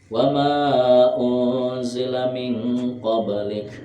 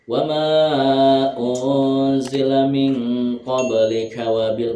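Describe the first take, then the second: First: The phrase stops, cutting the final vowel. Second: The phrase runs on into the next word. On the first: "boleh berhenti" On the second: "boleh diteruskan"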